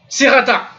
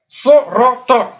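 First: The word is said light and thin. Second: The word is said heavy and emphatic. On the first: The speaker calls it wrong. "C'est pas sirata" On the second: The speaker calls it right. "je fais exprès de grossir"

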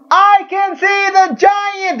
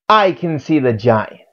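First: The title is shouted loudly. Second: The title is said at normal volume. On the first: The speaker calls it right. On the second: The speaker calls it wrong.

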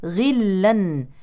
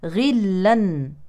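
No difference in how they are said.

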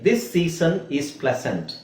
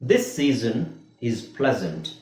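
First: The middle s sounds are hissed like s. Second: The middle s sounds are buzzed like z. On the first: The speaker calls it wrong. "ನಾನು ಅದನ್ನ ಎಸ್ ಹಾಕಿ ಹೇಳ್ತೀನಿ" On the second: The speaker calls it right. "ಎರಡನೇ ಸಲ ಅಂದ್ರೆ ಇದು, right?"

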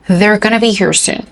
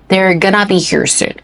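First: Going to is said fast, reduced to gonna. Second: The same.

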